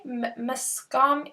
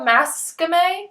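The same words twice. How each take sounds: First: "Mascame" slow and soft as muh-SKAHM; halting second attempt. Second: "Mascame" as MASS-kuh-may, rising like a question; unsure pronunciation. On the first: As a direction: stumble on the M, then stress "skahm" in "Mascame". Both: Real, not acted.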